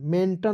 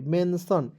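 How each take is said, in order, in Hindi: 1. बीच का व्यंजन एक कठोर 't' ध्वनि है। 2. बीच का व्यंजन एक नरम 'sh' ध्वनि है। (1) "मेंटन नहीं पढ़ेंगे" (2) "टी को साइलेंट यहाँ पे कर लीजिएगा"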